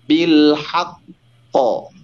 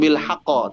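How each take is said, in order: First: The doubled q is held before bouncing out. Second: The doubled q bounces out without holding. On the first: The speaker calls it right. "maka tahan dulu hurufnya baru pantulkan" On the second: The speaker calls it wrong. "Tidak langsung bil haqqo"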